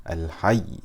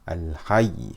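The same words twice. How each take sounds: Both takes have the same delivery.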